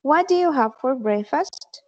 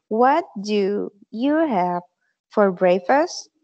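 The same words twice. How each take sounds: First: Said in the usual way. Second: "What do you have for breakfast" spelled out slowly, word by word; slow model sentence. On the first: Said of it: "se pronuncia". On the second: Shown as a demonstration. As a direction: say it slowly for the class to repeat. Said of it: "se pronuncia, se dice". (pronunciación lenta y clara)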